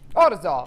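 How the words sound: It is said in an Italian accent.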